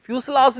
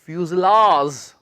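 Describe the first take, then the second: First: फ्यूजलाज said with a hissed s instead of z, fyoos-laaj; the mistaken फ्यूजलाज with a plain s; wrong s sound. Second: फ्यूजलाज said slowly with a clear z in the middle; drawn-out फ्यूजलाज, buzzing z not s; z sound. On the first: Teacher showing students the wrong फ्यूजलाज with an s. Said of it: "फ्यूजलाज नहीं". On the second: Teacher modelling the right फ्यूजलाज with a z. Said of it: "इसे हम ज की sound निकालेंगे students". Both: Shown as a demonstration.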